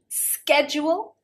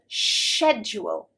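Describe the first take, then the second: First: The word begins with an sk sound. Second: The word begins with an sh sound. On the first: This is the American pronunciation. "schedule with a sk" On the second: This is the British pronunciation. "schedule with a sh sound"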